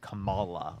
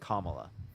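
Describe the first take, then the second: First: The name is said in an altered, mocking way. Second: The name is said in its standard, usual way. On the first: This is how the name is said to please a voter base. The speaker calls it wrong. "They always call her Kamala. Like, what the fuck is that?" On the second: This is how the person's name actually sounds. The speaker calls it right. "Her name is Kamala"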